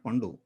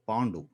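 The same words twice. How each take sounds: First: The first vowel is short. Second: The first vowel is long. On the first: The speaker calls it wrong. "It's not Pandu" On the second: The speaker calls it right. "A and uh, some line is there on the top of it"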